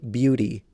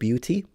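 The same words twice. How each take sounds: First: The middle T sounds like a soft D. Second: The middle T is a clear T. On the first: "when you pronounce the T like a soft D" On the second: "instead of"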